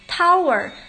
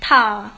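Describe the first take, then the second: First: The final r sound is pronounced. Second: The final r sound is dropped.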